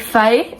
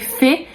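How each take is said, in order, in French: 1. Le mot se dit à la manière 'fae'. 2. Le mot se dit comme le français courant 'fée'. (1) "Vous le prononcez fae" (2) "vous le prononcez fée comme euh, comme une fée que qu'on connaît"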